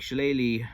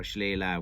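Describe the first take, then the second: First: First Shillelagh ending in "lee"; common pronunciation. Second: Second Shillelagh ending in "lah"; alternative pronunciation. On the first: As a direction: say Shillelagh as shi-LAY-lee. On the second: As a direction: say Shillelagh as shi-LAY-lah. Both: Shown as a demonstration. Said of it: "Shillelagh or Shillelagh".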